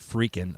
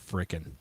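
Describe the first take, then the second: First: It is said as 'freaking', with a long vowel. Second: It is said as 'frickin', with a short vowel. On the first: The speaker calls it wrong. "I don't say freaking" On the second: The speaker calls it right. "I say frickin'"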